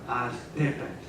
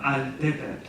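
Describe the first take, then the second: First: The final L sound is voiceless. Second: The final L sound is voiced. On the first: The speaker calls it right. "but altepet" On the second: The speaker calls it wrong. "not altepet"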